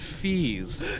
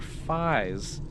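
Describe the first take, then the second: First: The vowel sounds like 'ee', as in fees. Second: The vowel sounds like 'eye', as in pies. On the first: The speaker calls it wrong. "but he pronounced it fees" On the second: The speaker calls it right. "it should be either pies or phies"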